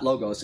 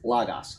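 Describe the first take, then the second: First: The first vowel sounds like oh. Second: The first vowel sounds like ah. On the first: The speaker calls it wrong. "it's not logos" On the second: The speaker calls it right. "One is pronounced ah, like omicron, like the word logos"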